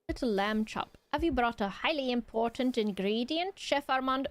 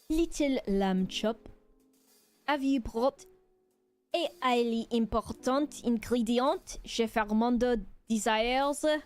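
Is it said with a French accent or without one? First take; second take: without; French accent. First: It is said without a French accent. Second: It is said with a French accent.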